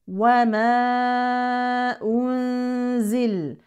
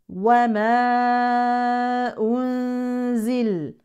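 Both takes have the same delivery.

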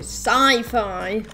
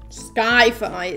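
First: The first syllable sounds like 'sigh'. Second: The first syllable sounds like 'sky'. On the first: The speaker calls it right. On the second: The speaker calls it wrong.

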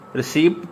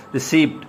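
Both takes have the same delivery.

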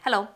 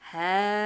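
First: It is said fast. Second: It is said slowly.

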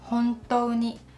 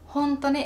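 First: The u sound is pronounced: hontou ni. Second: The u sound is dropped: honto ni. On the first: It sounds more formal. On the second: It sounds casual and everyday.

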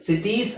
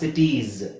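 First: The word ends with an s sound. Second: The word ends with a z sound. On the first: The speaker calls it wrong. "Sorry ಸಿಟೀಸ್ ಅಲ್ಲ" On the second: The speaker calls it right. "ಝೆಡ್ ಉಚ್ಚಾರಣೆ ಆಗುತ್ತೆ"

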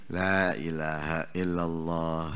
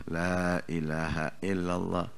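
Both takes have the same delivery.

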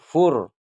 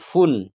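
First: The syllable ends in an r sound. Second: The syllable ends in an n sound. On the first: The speaker calls it right. "tetapi fur" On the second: The speaker calls it wrong. "Bukan fun"

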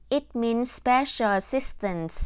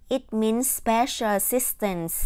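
No difference in how they are said.

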